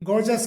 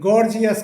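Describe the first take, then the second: First: The word is said with two syllables. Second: The word is said with three syllables. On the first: The speaker calls it right. "इसका सही जो pronunciation होता है" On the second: The speaker calls it wrong. "इसे गॉर्जियस बोला जाता है सामान्यतः"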